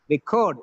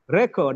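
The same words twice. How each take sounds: First: The stress is on the second syllable. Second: The stress is on the first syllable. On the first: It is used as a verb. "Record is a verb. The second syllable is stressed" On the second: It is used as a noun. "The first syllable is stressed. It's a noun"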